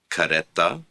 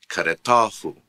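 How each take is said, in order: First: Kareta with stress on the middle syllable re. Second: Karetahu with stress moved onto ta. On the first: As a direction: say kareta, leaning on re. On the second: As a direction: say karetahu, pressing the ta syllable. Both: Shown as a demonstration. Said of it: "Note the change in the stress".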